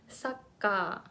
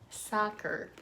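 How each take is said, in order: First: It is said with a Japanese katakana pronunciation. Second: It is said with an English pronunciation. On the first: The speaker calls it wrong. "I used to pronounce this word saka" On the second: The speaker calls it right. "this is kind of hard to pronounce"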